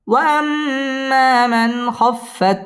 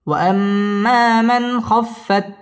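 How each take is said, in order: First: وأما sung higher and very slow; recited high opening. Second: Slow chant leaning on من; recited with stress on من. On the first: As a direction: lift وأما high and hold it. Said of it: "wow ঠোঁট গোল করে উচ্চারণ করতে হবে". (وأما উঁচু সুরে টেনে) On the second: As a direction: press من and hold the nasal. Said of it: "ওয়াজিব গুন্না". (من এর উপর জোর দিয়ে) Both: Shown as a demonstration.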